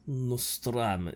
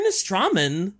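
First: The word is said in a Russian accent. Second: The word is said in a plain accent.

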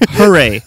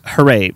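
First: It is said in a sincere tone. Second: It is said in a sarcastic tone. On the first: The news is truly worth celebrating. "That is really authentically a big deal" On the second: The news is not really worth celebrating. "Sounded sarcastic"

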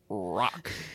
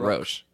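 First: The word ends with a k sound. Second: The word ends with an sh sound. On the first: The speaker calls it right. "it's rock" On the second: The speaker calls it wrong. "I said St. Roche"

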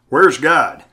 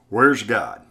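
First: It is said louder and firmer. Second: It is said softly and calmly.

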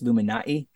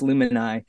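First: A glottal stop comes before the final vowel. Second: No glottal stop; the word flows straight through. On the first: "there is a glottal stop in that one" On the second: "leave out the apostrophe and just do an anglicized version of it"

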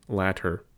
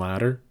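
First: The middle t is a clear, crisp t. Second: The middle t is a soft, d-like flap. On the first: "RP would differentiate between two words" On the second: "In American English, these would be the same"

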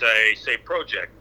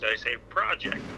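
First: It is said in a Canadian accent. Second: It is said in an American accent.

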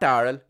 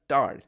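First: The name is said with two syllables. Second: The name is said with one syllable. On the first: The speaker calls it wrong. "not Daryl" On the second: The speaker calls it right.

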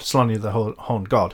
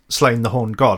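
First: The name is said with two syllables, 'Slonier'. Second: The name is said as one syllable, 'Slane'. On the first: The speaker calls it right. "Slonier, I think is the correct pronunciation" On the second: The speaker calls it wrong. "I'm going to call him Slane"

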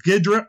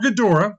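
First: The name is said with two syllables. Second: The name is said with three syllables. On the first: "this name has been pronounced two different ways, so I'll pronounce it both ways" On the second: "this name has been pronounced two different ways, so I'll pronounce it both ways"

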